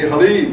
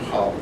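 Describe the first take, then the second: First: The stress is on the second syllable. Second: The stress is on the long first syllable. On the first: The speaker calls it wrong. "If I put the accent here, it would be halid. It doesn't exist" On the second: The speaker calls it right. "That tells you the accent is on the first syllable. It's long"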